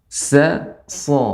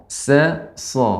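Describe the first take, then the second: The two takes are said the same way.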